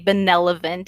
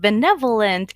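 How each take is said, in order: First: Two syllables of the word are swapped around. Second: The syllables of the word come in normal order. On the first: The speaker calls it wrong. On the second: The speaker calls it right.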